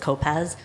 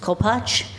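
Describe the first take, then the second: First: The name is pronounced the anglicized way. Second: The name is pronounced the Polish way. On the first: This is the form most relatives use. "most of the family says" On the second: This is the original form few relatives use. "the proper Polish pronunciation"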